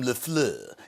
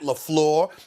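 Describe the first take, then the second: First: The name is given a showy French-style pronunciation. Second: The name is given a plain English-style pronunciation. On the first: It pokes fun at the name. The speaker calls it wrong. "he doesn't like it when I call him LaFleur" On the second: It respects the name. The speaker calls it right. "His name is Matt LaFleur"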